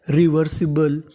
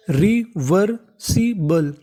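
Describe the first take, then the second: First: Said in the usual way. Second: reversible stretched very slowly, syllable by syllable; very slow sounding out. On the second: Shown as a demonstration. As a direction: spell out reversible slowly as a teacher. (Reversible बहुत धीरे, अक्षर-अक्षर खींचकर) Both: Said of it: "तो पूरी meaning बन गई".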